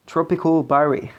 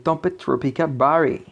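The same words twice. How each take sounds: First: Tropical Barry said with an English accent, not French. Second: Said in the usual way. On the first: Shown as a demonstration. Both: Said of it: "avec mon petit accent anglais".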